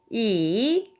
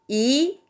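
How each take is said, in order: First: It is said with the third tone. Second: It is said with the second tone. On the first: "3성은" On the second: "2성"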